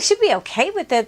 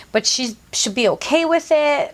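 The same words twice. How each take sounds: First: Higher, fast, echoing his words in disbelief; sarcastic parroting of a ridiculous excuse; incredulous mocking repeat. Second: Said in the usual way. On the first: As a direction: throw his line back at him, mocking. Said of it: "I was like". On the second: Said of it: "And he's like".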